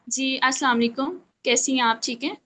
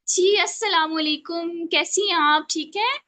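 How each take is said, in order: First: It is said in a plain, ordinary tone. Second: It is said in a confident, livelier tone.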